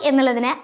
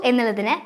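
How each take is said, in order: The two takes are said the same way.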